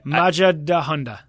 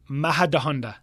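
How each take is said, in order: First: The j sounds like an English j. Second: The j sounds like an h. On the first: The speaker calls it wrong. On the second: The speaker calls it right.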